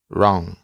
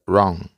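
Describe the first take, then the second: Both takes have the same delivery.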